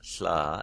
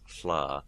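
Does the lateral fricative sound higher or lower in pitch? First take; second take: higher; lower. First: The fricative is alveolar and higher in pitch. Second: The fricative is retroflex and lower in pitch. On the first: "if I do an alveolar sla" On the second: "then I do a retroflex sla, it's a little bit lower in pitch"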